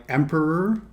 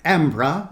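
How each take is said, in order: First: Said in the usual way. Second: Emperor said non-rhotic, like "empra", with no r sound; old-timey emperor. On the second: Retold or imitated. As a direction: imitate the transatlantic "emperor", dropping the r. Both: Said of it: "emperor instead of".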